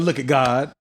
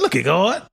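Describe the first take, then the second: First: Said in the usual way. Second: "God" drawn to a rounded "goht", rising; exaggerated God. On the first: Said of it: "but they'll be like". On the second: Shown as a demonstration. Friend shows how they say it for fun, exaggerated "God". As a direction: play up "God" with a rounded o and hard ending. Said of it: "We just adding the God".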